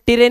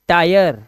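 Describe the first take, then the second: First: The vowel is 'ee' with an added final vowel. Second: The vowel is a gliding 'eye' sound. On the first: The speaker calls it wrong. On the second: The speaker calls it right.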